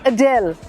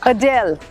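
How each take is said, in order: First: The stress is on the second syllable. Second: The stress is on the second syllable.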